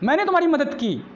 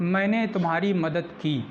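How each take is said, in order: First: The sentence is said with force and pressure. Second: The sentence is said in a plain, neutral way. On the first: It insists that the help really was given. "दबाव डालकर कह रहा कि हाँ की" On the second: It simply states that help was given. "तब ये normal sentence होगा, एम्फैटिक नहीं होगा"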